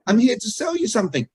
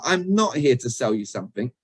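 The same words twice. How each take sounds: First: High-pitched echo of the hidden message; what is really heard. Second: "not" stressed, the rest at everyday pitch. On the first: Coach echoing what customers hear from salespeople, high and emphatic. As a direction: raise the whole line, falling at the end. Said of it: "What do we actually hear them saying". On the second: Coach quotes a salesperson's actual words, stressing not. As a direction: lean on "not" in the denial. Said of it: "the words are". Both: Shown as a demonstration.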